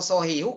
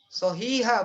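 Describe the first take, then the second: First: The word ends with a 'u' vowel. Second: The word ends with an 'a' vowel. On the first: The speaker calls it wrong. "Kalau sohihu kacau" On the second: The speaker calls it right. "Sohiha bacanya"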